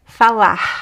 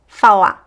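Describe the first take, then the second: First: The final R sounds like a breathy H. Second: The final R is dropped, ending on the vowel. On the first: "So it could be here, h" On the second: "it disappears, right? We just hear the vowel"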